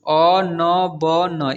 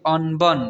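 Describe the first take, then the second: First: अनबन slow, each letter separate; अनबन broken into drawn-out letters; spelled out letter by letter. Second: Said in the usual way. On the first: Shown as a demonstration. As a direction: sound out अनबन one long letter at a time. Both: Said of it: "इसे पढ़ेंगे".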